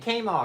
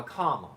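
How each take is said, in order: First: Kama with a long A, like "came"; Kama as KAY-muh. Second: Kama with an open "ah" first vowel; Kama as KAH-muh. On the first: Asking a viewer about their name, Kama said KAY-muh. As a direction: say Kama starting like the letter K. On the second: Asking a viewer about their name, Kama said KAH-muh. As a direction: say Kama to rhyme with drama. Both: Shown as a demonstration. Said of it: "Is the first one or second".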